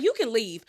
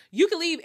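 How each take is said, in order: First: Said in the usual way. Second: Repeating You can leave louder and higher; angry hostess ordering her guest out, retold; mock yell, raised higher. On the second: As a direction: throw her out the second time, raised voice. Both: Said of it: "She was like".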